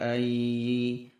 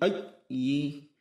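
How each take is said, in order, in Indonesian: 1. Nadanya tetap datar. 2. Nadanya sangat tinggi. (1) "Tidak dibaca datar" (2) "terlalu tinggi"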